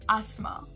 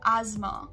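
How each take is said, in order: First: British pronunciation, without the z sound. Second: American pronunciation, with a z sound. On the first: "coming to the British pronunciation" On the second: "Looking at the American pronunciation, instead of the S, we'll say it as a Z"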